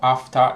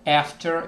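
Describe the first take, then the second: First: It is said in an English accent. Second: It is said in an American accent. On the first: "is English" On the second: "after is American"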